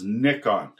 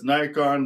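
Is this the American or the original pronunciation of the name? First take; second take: original; American. First: It is said the original, non-American way. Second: It is said the North American way. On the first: "the actual pronunciation is Nikon" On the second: "in America and Canada we call this Nikon"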